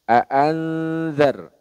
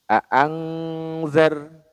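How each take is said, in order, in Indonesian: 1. Bunyi sengaunya terbawa ke bunyi z setelahnya. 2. Bunyi sengaunya berubah jadi bunyi ng. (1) "samarnya ke huruf setelahnya" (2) "larinya ke ang ... itu kurang tepat"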